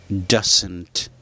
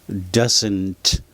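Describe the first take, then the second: The two takes are said the same way.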